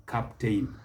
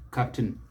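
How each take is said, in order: First: Captain said as cap-TAYN; mispronunciation. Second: Captain said as CAP-tn; correct pronunciation. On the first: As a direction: rhyme the end of captain with "rain". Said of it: "What we must not do is". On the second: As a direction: swallow the vowel ending captain. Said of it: "it is pronounced the same". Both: Shown as a demonstration.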